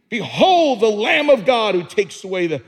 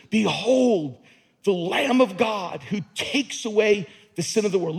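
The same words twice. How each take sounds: First: Shouted out loud, full force; screaming it. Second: Said in the usual way. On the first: Shown as a demonstration. Preacher shouting Behold to the congregation. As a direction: cry it out like a proclamation. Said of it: "Screaming it". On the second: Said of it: "Look at the end of that word world".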